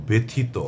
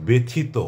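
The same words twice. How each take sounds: No difference in how they are said.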